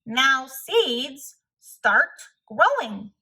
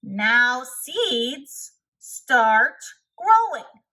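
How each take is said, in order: First: Louder, slow and firm; louder command, words drawn out; said loudly. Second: Hammed-up shout at the ground. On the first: Acted. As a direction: order the seeds to grow, loud and slow. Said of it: "said loudly". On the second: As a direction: yell at the seeds so they obey.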